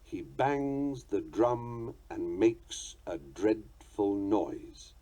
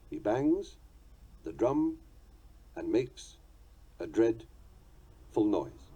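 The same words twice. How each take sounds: First: Very slow, each beat marked; slow scansion of the line; metrical reading. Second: "He bangs", "the drum", "and makes", "a dreadful", "noise" each said alone with a pause; foot-by-foot scansion; split into feet. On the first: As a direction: read "He bangs the drum and makes a dreadful noise" slowly, stressing "bangs", "drum", "makes", "dread", "noise". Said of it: "Let's give the meter meaning by substituting words". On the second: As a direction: beat out the five feet one at a time. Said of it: "The line consists of five titum feet". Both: Shown as a demonstration.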